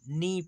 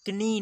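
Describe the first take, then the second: First: The K is silent; it starts with N. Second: A K sound is pronounced before the N. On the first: The speaker calls it right. "नी पढ़ेंगे, के silent है" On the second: The speaker calls it wrong. "इसे कनी नहीं पढ़ेंगे"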